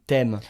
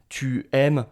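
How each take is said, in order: First: The pronoun loses its vowel before the verb. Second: The pronoun keeps its full vowel. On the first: The speaker calls it right. "Je vais dire ... t'aimes" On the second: The speaker calls it wrong. "on ne va pas dire ça"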